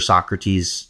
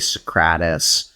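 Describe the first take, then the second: First: The name is pronounced the usual way. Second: The name is pronounced in an altered way.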